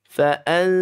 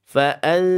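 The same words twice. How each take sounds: Both takes have the same delivery.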